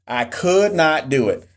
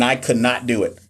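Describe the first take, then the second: First: "could not" drawn out slowly; emphatic repeat. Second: Said in the usual way. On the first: Real, not acted. Admitting the accent was too distracting, emphatic. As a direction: lean hard and slow on "could not".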